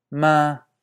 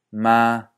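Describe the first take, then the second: First: Ma held level on a higher pitch; higher first tone. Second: Ma held level, a bit lower; lower first tone. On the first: Teacher showing a higher variant of the first tone. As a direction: hold ma flat, pitched up high. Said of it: "algo más alto". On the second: Teacher showing a lower variant of the first tone. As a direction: hold ma flat on a lower note. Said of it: "o más bajo". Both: Shown as a demonstration.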